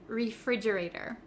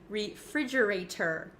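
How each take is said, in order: First: The T sounds like a soft D. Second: The T is a clear, crisp T. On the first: The speaker calls it right. "We say refrigerator" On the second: The speaker calls it wrong. "we don't often say refrigerator in America"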